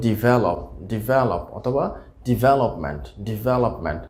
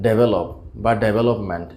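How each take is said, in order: First: ডেভেলপ starting "di", as "di-VE-lop"; correct pronunciation. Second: ডেভেলপ starting "DE", as "de-ve-lop"; common mispronunciation. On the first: Teacher models the words for learners, correctly pronounced. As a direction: say ডেভেলপ with a short "di" first. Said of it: "সঠিক উচ্চারণটা হবে". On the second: Teacher shows the usual mistake, mispronounced. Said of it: "আমরা উচ্চারণ করে থাকি". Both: Shown as a demonstration.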